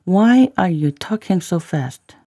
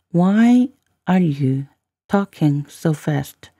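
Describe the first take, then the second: First: Said in the usual way. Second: Very slow, with a break after "Why are you"; careful slow model reading; slow, chunked demo. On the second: Shown as a demonstration. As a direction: draw it out for learners, phrase by phrase. Teacher repeats line in slow chunks.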